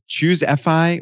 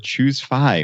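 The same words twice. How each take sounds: First: The last part is spoken as two letters. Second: The last part is spoken as one syllable.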